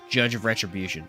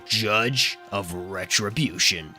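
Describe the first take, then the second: First: The phrase is said plainly with little energy. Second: The phrase is said forcefully with dramatic energy. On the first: The speaker calls it wrong. "You can't just say Judge of Retribution. That's lame" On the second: The speaker calls it right. "You got to go Judge of Retribution. And then it fits perfectly"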